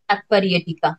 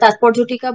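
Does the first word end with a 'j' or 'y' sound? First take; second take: y; j. First: The first word ends with a 'y' sound. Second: The first word ends with a 'j' sound. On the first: This is the Sanskrit way of saying it. "সংস্কৃত উচ্চারণে" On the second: This is the Bengali way of saying it. "আমি বাংলায় উচ্চারণ করছি বলে"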